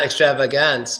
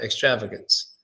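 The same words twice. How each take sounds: First: The third vowel is a full, clear vowel. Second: The third vowel is a weak, barely heard schwa. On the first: The speaker calls it wrong. "not extravagance" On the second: The speaker calls it right. "but extravagance"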